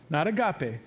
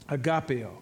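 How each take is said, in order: First: "agape" said a-GA-pe, three syllables, stopping on -pe. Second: "Agapeo" said a-ga-PE-o, four syllables ending in o. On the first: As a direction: stress "agape" and stop short on -pe, no -o. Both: Shown as a demonstration.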